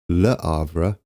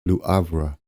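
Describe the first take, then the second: First: The first syllable sounds like 'luh'. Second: The first syllable sounds like 'loo'. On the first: "I thought it might be Le" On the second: "I'm going to go with Luavra"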